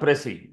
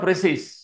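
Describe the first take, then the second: First: The word ends on a vowel sound. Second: The word ends with an s sound. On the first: The speaker calls it right. "It is ప్రెసీ" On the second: The speaker calls it wrong. "It's not ప్రెసీస్"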